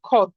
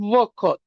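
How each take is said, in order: First: The word starts directly with kh. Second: A v-like sound is heard before kh. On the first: The speaker calls it right. "রাশিয়ানদের উচ্চারণে কি হয়? খত" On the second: The speaker calls it wrong. "এইটাতে ভীর উচ্চারণ করা লাগে না, এটা ওয়াখত, ও ওয়াখত এরকম হয়, কিন্তু এটা করা লাগে না"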